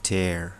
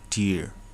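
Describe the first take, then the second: First: The vowel sounds like 'air'. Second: The vowel sounds like 'ear'. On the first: It means to rip. "ईलाई चाहिँ अलि ए sound हुनुपर्छ" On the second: It means a drop from the eye. "टियर भनेको त आँसु"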